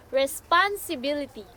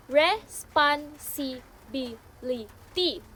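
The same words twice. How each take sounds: First: Said in the usual way. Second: "responsibility" slowly, one syllable at a time; "responsibility" chopped slowly into syllables with small gaps; broken into syllables. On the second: Shown as a demonstration. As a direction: say "responsibility" in separate beats, re-spon-si-bi-li-ty. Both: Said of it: "when break into syllables".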